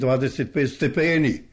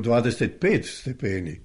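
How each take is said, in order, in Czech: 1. Přízvuk padá na slovo stepeni. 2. Přízvuk padá na číslo 25. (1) "Pa nije stepeni" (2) "Smisao je na 25"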